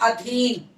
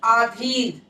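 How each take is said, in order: First: The first vowel is short. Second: The first vowel is long. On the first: The speaker calls it right. "होता है अधीन" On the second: The speaker calls it wrong. "आधीन जो है वो अशुद्ध है"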